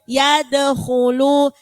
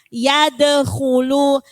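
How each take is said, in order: The two takes are said the same way.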